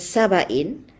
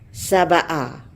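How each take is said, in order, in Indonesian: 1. Kata itu berakhir dengan bunyi 'in'. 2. Kata itu berakhir dengan vokal 'a' biasa. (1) "kalau dibaca dengan Saba'in" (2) "dengan uh, fathah Saba'a"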